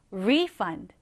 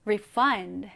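First: "refund" with the stress up front, RE-fund; stress on first syllable. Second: "refund" with the stress at the back, re-FUND; stress on second syllable. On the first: Teacher contrasts the noun meaning, "refund" stressed on RE. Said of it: "이렇게 발음하시면 됩니다". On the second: Teacher contrasts the verb meaning, "refund" stressed on FUND. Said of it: "환불하다라는 의미일 때는". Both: Shown as a demonstration.

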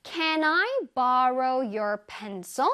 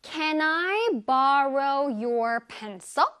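First: Can I borrow your pencil? 을 한 단어씩 아주 천천히; slow model sentence. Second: Can I borrow your pencil? 을 다시 아주 천천히; slow model sentence. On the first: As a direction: read it slowly for learners. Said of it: "짜잔". (아주 천천히 또박또박 읽는 예문) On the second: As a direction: repeat slowly for learners to copy. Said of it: "One more time". (다시 한 번 천천히 또박또박) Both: Shown as a demonstration.

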